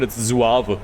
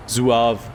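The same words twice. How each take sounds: First: "Suave" said as "zuahveh" in German style; German pronunciation. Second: "Suave" said as "zuahv", with a German z; German pronunciation. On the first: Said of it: "If you pronounce it in German". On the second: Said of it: "If you pronounce suave in German". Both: Shown as a demonstration.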